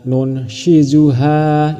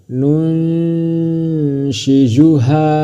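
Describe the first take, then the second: First: The n is pronounced clearly before the sh. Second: The n is hidden, nasal, blending into sh. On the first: The speaker calls it wrong. "Bukan dibaca nun shizuha, itu salah" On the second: The speaker calls it right. "Tapi disamarkan ke huruf shin. Nun shizuha, seperti itu"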